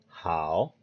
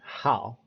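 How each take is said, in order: First: The tone of the word does not fall. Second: The tone of the word falls sharply. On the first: It means good. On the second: It means day of the month.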